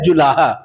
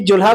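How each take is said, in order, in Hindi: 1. बीच का स्वर रहता है, इसलिए तीन अक्षर होते हैं। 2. बीच का स्वर छूट जाता है, इसलिए दो अक्षर होते हैं। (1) "असल में उसका शब्द होता है जुलाहा" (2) "जुल्हा कोई शब्द ही नहीं होता है"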